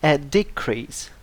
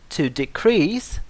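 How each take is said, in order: First: A decrease with first syllable stressed, DE-crease; noun stress. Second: To decrease with second syllable stressed, de-CREASE; verb stress. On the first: Teacher contrasting noun with verb, decrease stressed on first syllable. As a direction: lean on the start of decrease. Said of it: "The stress falls on different syllables". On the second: Teacher contrasting verb with noun, decrease stressed on second syllable. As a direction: lean on the end of decrease. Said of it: "difference in pronunciation between the verb". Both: Shown as a demonstration.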